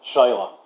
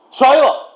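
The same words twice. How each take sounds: First: Said in the usual way. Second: Much higher, louder call. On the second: Real, not acted. Caller to a lost voice assistant, shouting out. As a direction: shout to find someone who has gone silent.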